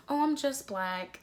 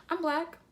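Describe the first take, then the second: First: Slower, higher mimicry of disappointment; mock disappointment. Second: Proud, high-pitched declaration. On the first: Imitating black people who undersell themselves, mock disappointment. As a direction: imitate someone letting down their listener. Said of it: "say it like you are, like, you're disappointed". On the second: Acted. Answering people who ask what she is, proud. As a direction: state it proudly, voice lifted high. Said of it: "I proudly tell people".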